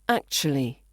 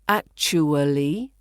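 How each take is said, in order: First: The word is said fast with syllables squeezed. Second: The word is said slowly with every syllable. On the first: "the fast, more natural-sounding pronunciation" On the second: "slower, fuller pronunciation"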